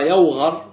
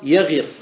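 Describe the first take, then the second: First: The vowel before the last consonant is a. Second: The vowel before the last consonant is i. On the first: This is the regular form. "يوغر بالفتح" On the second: This is the irregular form. "وأن تكسر تقول وغير يغير"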